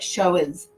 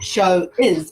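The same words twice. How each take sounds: First: The two words run together like 'show whiz'. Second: The two words are said separately. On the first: The speaker calls it right. "we push them together, we bump them together" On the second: The speaker calls it wrong. "Not show is"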